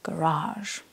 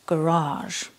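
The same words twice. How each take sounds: First: It is said with an American accent. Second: It is said with an American accent.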